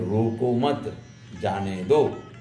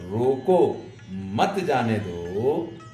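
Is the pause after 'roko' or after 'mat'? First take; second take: after mat; after roko. First: The pause comes after 'mat'. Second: The pause comes after 'roko'.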